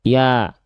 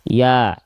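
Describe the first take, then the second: No difference in how they are said.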